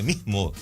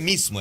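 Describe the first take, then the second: First: The s is replaced by a breathy h sound. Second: The word is said with a clear s sound. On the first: The speaker calls it right. "eles trocam o S por" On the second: The speaker calls it wrong. "não é mesmo"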